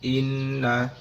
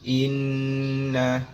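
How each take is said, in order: First: The doubled n is held only briefly. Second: The doubled n is held long and nasal. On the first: The speaker calls it wrong. "kadar gunanya itu berkurang" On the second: The speaker calls it right. "huruf nun yang ditasydid"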